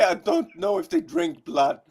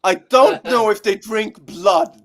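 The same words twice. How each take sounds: First: Said in the usual way. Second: Slow, disbelieving, leaning on don't; slow mocking disbelief; incredulous repeat. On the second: Shown as a demonstration. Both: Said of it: "Did they actually say".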